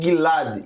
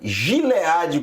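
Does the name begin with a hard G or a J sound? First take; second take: hard G; J sound. First: The name begins with a hard G sound. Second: The name begins with a soft J sound. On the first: The speaker calls it right. "Não existe o som de J no hebraico" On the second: The speaker calls it wrong. "como está nas, nas transliterações, está completamente equivocado"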